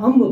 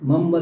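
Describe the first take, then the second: First: The word begins with a vowel sound. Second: The word begins with an m sound. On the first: The speaker calls it right. "અહીંયા અંબ બોલો" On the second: The speaker calls it wrong. "મમ્બ નથી"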